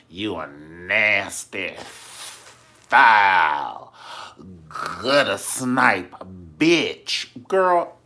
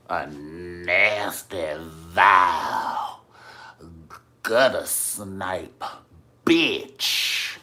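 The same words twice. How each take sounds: First: Slow, loud, drawn-out insult; venomous insult. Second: Slow, loud, drawn-out Madea tirade; Madea style. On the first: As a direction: spit each word out slowly and loudly. Insult hurled in quarrel retold. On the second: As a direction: hammer every insult slowly like Madea. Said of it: "good old Madea style". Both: Retold or imitated.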